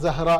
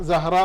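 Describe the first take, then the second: No difference in how they are said.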